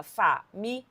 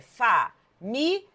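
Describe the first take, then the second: First: "família" as fa, mi, li, a with pauses; four separate syllables. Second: "família" as fa, mi, lia with pauses; three separate syllables. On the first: Teacher giving the grammarians' separation, "família" in four beats. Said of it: "a separação como proparoxítona". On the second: Teacher giving the everyday separation, "família" in three beats. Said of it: "normal, comum aí". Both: Shown as a demonstration.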